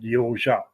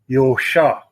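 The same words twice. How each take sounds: First: The middle consonant is said with a z sound. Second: The middle consonant is said without a z sound. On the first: The name keeps its original family pronunciation. "my father always pronounced it Józsa" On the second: The name is read as spelled without a Z. "people in Hungary say Józsa because I don't have a Z in it"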